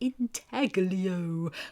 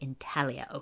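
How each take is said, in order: First: The g is sounded in the middle. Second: The g is silent in the middle. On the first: The speaker calls it wrong. "I just have a block on that G. In my head, I'm always saying intaglio" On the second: The speaker calls it right. "my mouth is supposed to say intaglio"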